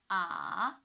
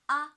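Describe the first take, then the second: First: The pitch dips low, then rises. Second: The pitch stays high and level. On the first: "From two to one to four" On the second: "The first one on the five"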